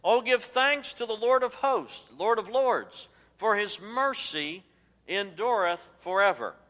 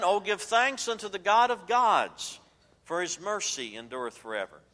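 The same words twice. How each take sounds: First: Loud, high, emphatic scripture reading; forceful pulpit proclamation of scripture; more emphatic. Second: Emphatic scripture reading, loud and high at first, then settling. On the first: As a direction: proclaim it at full voice, high to the end. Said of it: "to be more emphatic, God continues". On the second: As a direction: open loud and high, then let it fall. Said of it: "And then to be emphatic". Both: Retold or imitated.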